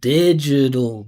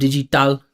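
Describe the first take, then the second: First: The last syllable is a reduced syllabic L. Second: The last syllable keeps a clear vowel. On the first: The speaker calls it right. "eliminate the vowel, keep your voice moving forward" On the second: The speaker calls it wrong. "So instead of digital"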